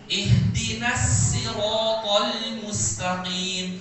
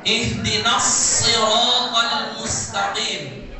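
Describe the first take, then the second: First: Siratal with a light thin s of sin, slow. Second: Siratal with the heavy emphatic s of shad, slow and full. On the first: Teacher showing class the wrong sin reading. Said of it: "kita bacanya pakai huruf sin". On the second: Teacher reciting the correct shad to the class. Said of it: "Kata as-sirat pakai huruf shad". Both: Shown as a demonstration.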